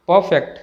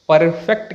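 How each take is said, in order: First: परफेक्ट as "puh-fect"; silent r. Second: परफेक्ट with an audible r; sounded r. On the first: Teacher gives correct pronunciation, r silent. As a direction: say परफेक्ट without the r. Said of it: "सही pronunciation". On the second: Teacher showing the wrong way, r sounded. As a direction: pronounce the r in परफेक्ट. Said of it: "कहना गलत है". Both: Shown as a demonstration.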